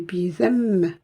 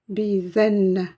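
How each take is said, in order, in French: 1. Le son nasal se prononce comme un m. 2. Le son nasal se prononce comme un n. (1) "mais bizem" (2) "je ne dis pas bizen"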